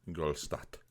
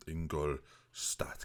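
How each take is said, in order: First: Said in the usual way. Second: Ingolstadt said very slowly, syllable by syllable, low and soft; careful mock German pronunciation of Ingolstadt; German-style Ingolstadt. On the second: Shown as a demonstration. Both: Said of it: "Get the pronunciation right".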